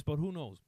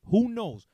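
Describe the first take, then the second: First: Said in the usual way. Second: "Who" shouted higher and louder; louder who knows. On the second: Real, not acted. Repeating the shrug to the crowd, loud and high.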